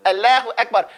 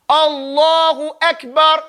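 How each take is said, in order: First: Allahu Akbar with a thin lam, a mild mockery; mock wrong version. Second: Slow Allahu Akbar with a heavy lam; full recitation. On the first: Teacher mocking the cartoon pronunciation. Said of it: "you sound crazy". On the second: Teacher modelling the correct heavy lam. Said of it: "You don't say". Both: Shown as a demonstration.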